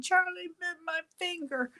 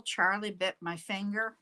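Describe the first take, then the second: First: High British child voice imitating the viral video; British child accent. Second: Said in the usual way. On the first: Retelling the viral video boy to the viewers, British accent. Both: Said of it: "in a British accent".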